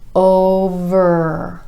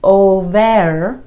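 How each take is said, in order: First: The v runs straight into the er sound. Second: An extra 'eh' vowel slips in after the v. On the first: The speaker calls it right. "straight from the v to the er" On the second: The speaker calls it wrong. "letting that eh sound sneak in there. So instead of over"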